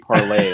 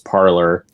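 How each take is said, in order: First: The name is said the French way, ending in 'ay'. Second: The name is said the English way, ending in 'or'. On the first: This is how the name was intended. "it was supposed to be parlay, like French" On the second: This is how most people say it. "the way people were pronouncing it, which was parlor"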